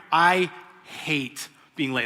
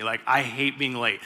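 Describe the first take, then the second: First: "I hate being late" said very slowly, each word weighed; emphatic. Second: Said in the usual way. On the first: Shown as a demonstration. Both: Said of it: "That's a thing for me".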